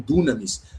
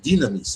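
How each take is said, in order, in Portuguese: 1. A primeira vogal soa como 'oo'. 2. A primeira vogal soa como 'ee'. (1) "dependendo da tua pronúncia" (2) "esse som I"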